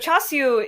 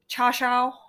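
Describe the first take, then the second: First: It is said with Cantonese sounds, like chasiu. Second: It is said with Mandarin sounds, like cha shao. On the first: "is the Cantonese pronunciation" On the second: "The Mandarin pronunciation is"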